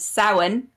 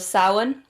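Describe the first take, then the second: First: It is said with the TV-show pronunciation. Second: It is said with the Irish pronunciation. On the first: The speaker calls it wrong. "not Samhain as Buffy and Charmed would have led you to believe it was pronounced" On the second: The speaker calls it right. "It's from the the festival of Samhain"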